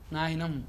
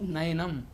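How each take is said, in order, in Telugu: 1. మొదటి అచ్చు పొడవుగా ఉంటుంది. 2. మొదటి అచ్చు పొట్టిగా ఉంచండి.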